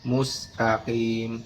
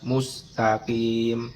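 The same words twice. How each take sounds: The two takes are said the same way.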